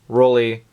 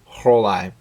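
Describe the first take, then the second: First: The name is said in a non-German way. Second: The name is said in a German way. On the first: This is a pronunciation other people use. The speaker calls it wrong. "I have heard the brand name pronounced several different ways" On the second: This matches the brand's German origin. The speaker calls it right. "but it's German, right? So it should be"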